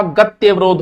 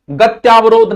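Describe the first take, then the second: First: गत्यवरोध with short vowel after tya; correct pronunciation. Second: गत्यावरोध with long aa after tya; wrong pronunciation. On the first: Teacher giving students the correct word, careful pronunciation. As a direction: say गत्यवरोध, keeping त्य short. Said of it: "गत्यवरोध होता है". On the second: Teacher showing students the mistake, mispronounced demo. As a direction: say गत्यावरोध, stretching the aa in त्या. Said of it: "गत्यावरोध नहीं होता". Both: Shown as a demonstration.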